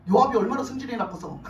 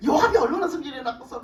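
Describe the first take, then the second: First: Said in the usual way. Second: Laughing. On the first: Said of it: "first take before laughing". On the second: Real, not acted.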